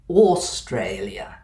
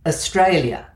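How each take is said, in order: First: The first vowel is a full vowel. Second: The first vowel is a quick schwa. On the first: This is a more formal, traditional pronunciation. "by contrast, always said Australia" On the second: This is the local everyday pronunciation. "AU in our local pronunciation of Australia"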